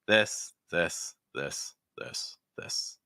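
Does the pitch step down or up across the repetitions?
down. The pitch steps lower on each repetition. "just practice going down like this"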